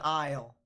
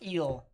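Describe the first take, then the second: First: The word is said like English 'isle'. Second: The word is said like English 'eel'. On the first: "That definitely is not an eel, that's an isle" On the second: "Pronounced the French way? ... I concede"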